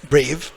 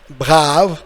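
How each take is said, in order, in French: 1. Il est prononcé à l'anglaise. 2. Il est prononcé à la française. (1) "In English, as you know, it's brave" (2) "en français c'est brave"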